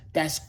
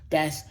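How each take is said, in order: Both takes have the same delivery.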